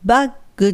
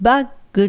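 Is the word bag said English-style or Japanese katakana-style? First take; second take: Japanese; Japanese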